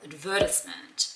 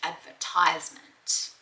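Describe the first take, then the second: First: It is said in a non-American accent. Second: It is said in an American accent.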